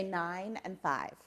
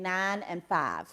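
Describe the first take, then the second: First: "nine and five" with full "eye" glides; trained non-regional diction. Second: Alabama twang on "nine and five"; Southern accent. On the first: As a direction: softly enunciate "nine and five" without a twang. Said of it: "I had to learn to say". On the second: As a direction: flatten "nine and five" into Southern long-ah vowels. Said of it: "if I did not stop saying". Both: Shown as a demonstration.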